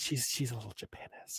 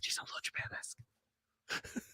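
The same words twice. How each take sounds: First: Unvoiced hush of a secret; whispered. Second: Unvoiced whisper, a bit slower. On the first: Friend whispering the joke word to his cohost. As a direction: whisper it like gossip. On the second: Cohost echoing the joke in a slow whisper. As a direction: hush it out slowly.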